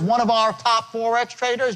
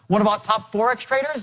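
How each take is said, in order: First: The small words are said separately and distinctly. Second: The small words are run together quickly. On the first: The speaker calls it wrong. "it's not" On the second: The speaker calls it right. "contract these words together"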